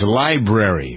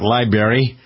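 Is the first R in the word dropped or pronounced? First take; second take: pronounced; dropped. First: The first R sound is clearly pronounced. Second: The first R sound is dropped. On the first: The speaker calls it right. "it's library, right? The R, most disrespected" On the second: The speaker calls it wrong. "it's not library"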